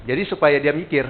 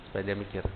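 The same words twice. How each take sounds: First: Said in the usual way. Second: "supaya dia mikir" dropped lower and softer, letting it sink in; soft trailing intonation. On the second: Shown as a demonstration. Trainer shows agents how to let a question sink in, low and soft. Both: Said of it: "Jadi intonasinya juga main".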